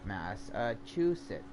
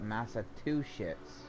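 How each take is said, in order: First: The word is pronounced in the standard way. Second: The word is pronounced in an altered way.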